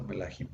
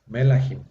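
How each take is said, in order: First: Melahim said softly with the accent on HIM; stress on final syllable. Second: Melahim wrongly stressed on the first syllable, ME; misplaced early stress. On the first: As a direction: land the accent on the end of melahim. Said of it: "el acento queda en la última sílaba". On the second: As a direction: punch the ME of melahim. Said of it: "Ya no es". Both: Shown as a demonstration.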